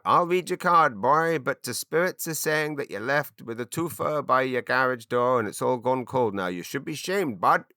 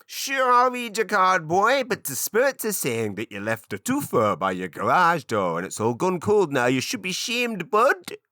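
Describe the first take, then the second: First: Badly done East Coast Canadian accent, pitched up. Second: Very high, loud, wildly overdone East Coast Canadian witch; screechy-high kitchen witch in a mangled East Coast Canadian accent. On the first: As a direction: kitchen witch in a broad, wonky East Coast Canadian accent. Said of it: "what I'm trying to do is an East Coast Canadian accent". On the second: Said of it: "I'm trying to do it stereotypically". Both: Shown as a demonstration.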